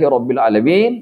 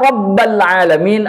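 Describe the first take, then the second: First: The word after 'Rabb' has the vowel 'i'. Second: The word after 'Rabb' has the vowel 'a'. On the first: Everything belongs to God and is continually cared for. "Kalau dibaca Alhamdulillahi Rabbil Alamin" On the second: Creation needs its creator to exist and endure. "Kalau dibacanya Rabbal Alamin"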